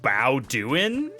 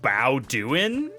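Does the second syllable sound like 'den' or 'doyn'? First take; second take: doyn; doyn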